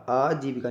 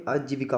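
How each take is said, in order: First: आजीविका with long middle "jee"; wrong pronunciation. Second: आजीविका said evenly, "aa-ji-vi-ka"; correct pronunciation. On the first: Teacher shows the mistake, आजीविका with drawn-out vowels. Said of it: "नहीं होता भाई". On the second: Teacher gives the right form, आजीविका in even syllables. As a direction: keep आजीविका even and unstretched. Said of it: "होता है". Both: Shown as a demonstration.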